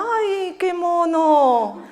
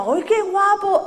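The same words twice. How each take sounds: First: Slow, laughing "¡Ay, qué mono!" with a strained, drawn-out qué; covering a dislike with a sugary compliment; knowing, hammed-up politeness; polite fake praise. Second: Mother's genuine, slow, high "¡Ay, qué guapo!" with a drawn-out qué; truly charmed by the baby, higher and slow; real admiration, not politeness; sincere delight. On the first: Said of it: "es que algo del niño no le gustaba". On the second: Retold or imitated. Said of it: "es que era guapo".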